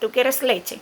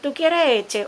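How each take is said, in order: First: The last word is said with its first l. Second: The last word is said without its first l. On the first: It models the correct word for the baby. The speaker calls it right. "lo correcto es decirle correctamente" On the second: It copies the baby's own way of saying the word. The speaker calls it wrong. "el papá empieza"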